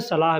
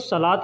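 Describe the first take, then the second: First: The word ends with an h sound. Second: The word ends with a t sound. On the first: "जब रुक के पढ़ेंगे तो त को न पढ़ के सिर्फ ह पढ़ेंगे" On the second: "लिखने में सलात लिखा जाता है"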